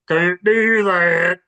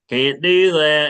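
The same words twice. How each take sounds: First: It has an exaggerated country accent. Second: It has a mild country accent.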